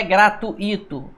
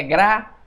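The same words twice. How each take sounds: First: "gratuito" split into "gra-tu-í-to", as the wrong form; wrong pronunciation demo. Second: "gratuito" said as "gra-tui-to", with "ui" kept together; correct pronunciation demo. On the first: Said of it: "Não existe gratuito". ("gratuito" com hiato "tu-í", pronúncia errada) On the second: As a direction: keep "ui" as one syllable in "gratuito". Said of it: "Essas duas vogais não se separam". ("gratuito" com ditongo "tui", pronúncia correta) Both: Shown as a demonstration.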